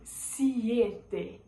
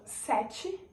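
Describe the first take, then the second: First: "siete" slowly, with the added i before e; Spanish pronunciation. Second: Portuguese pronunciation; Portuguese sete. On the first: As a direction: say "siete" as see-EH-teh. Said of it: "em espanhol". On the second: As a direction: say "sete" the Brazilian way, set-chee. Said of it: "em português". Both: Shown as a demonstration.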